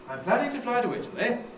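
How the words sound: The pitch rises on the final word. "I can do it with a rise"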